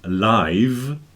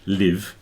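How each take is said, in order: First: The vowel is a long 'eye' sound. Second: The vowel is a short 'ih' sound. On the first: "And then there's live" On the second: "live with that straight E, that I mean that I sound, I"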